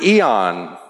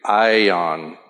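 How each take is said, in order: First: The word is pronounced the English way. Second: The word is pronounced the Greek way.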